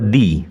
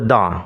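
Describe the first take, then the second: First: The word ends in an 'ee' vowel. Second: The word ends in a short 'uh' vowel. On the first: The next word begins with a vowel. "ভয়েল দিয়ে শুরু হয় তাহলে দি এর উচ্চারণ হবে দি" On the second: The next word begins with a consonant. "Consonant দিয়ে শুরু হয় তাহলে দি এর উচ্চারণ হবে দা"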